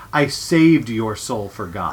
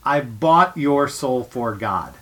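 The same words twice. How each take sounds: First: "I saved your soul for God" said slowly with weight on "saved"; slow solemn stress on "saved"; slow solemn quote. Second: "I bought your soul for God" said slowly with weight on "bought"; slow solemn stress on "bought"; slow solemn quote. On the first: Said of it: "They changed it to". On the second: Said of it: "the line in the play is". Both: Retold or imitated.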